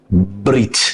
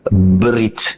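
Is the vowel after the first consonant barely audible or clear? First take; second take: barely audible; barely audible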